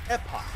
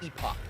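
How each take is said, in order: First: The word is said the American way, with a U. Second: The word is said the British way. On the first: "in America and other places it's pronounced Epoch ... like with a U" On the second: "in Britain it is pronounced Epoch"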